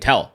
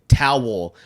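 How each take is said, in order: First: The word is said quickly as one syllable. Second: The word is said fully in two syllables. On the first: "I'm just not enunciating the W. I'm saying it fast" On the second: "I'm not saying towel"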